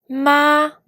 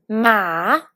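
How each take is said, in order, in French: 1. La syllabe porte le premier ton. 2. La syllabe porte le troisième ton. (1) "pour le premier ton" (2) "pour le troisième ton"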